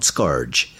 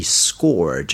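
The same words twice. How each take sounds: First: Scourge mispronounced as SKARJ; wrong pronunciation. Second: Scourge said like SKORJ; correct pronunciation. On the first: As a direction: say scourge with an AR vowel, as in scar. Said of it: "not scourge". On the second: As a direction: say scourge with an OR vowel, as in score. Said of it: "note how you pronounce that". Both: Shown as a demonstration.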